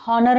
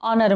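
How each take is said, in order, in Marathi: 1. हा शब्द h आवाजाने सुरू होतो. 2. हा शब्द स्वर आवाजाने सुरू होतो. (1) "आपण याला हॉनर नाही म्हणत" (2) "ऑनर म्हणतो. स्पेलिंगमध्ये यच आहे पण याचा इथं उच्चार केला जात नाही"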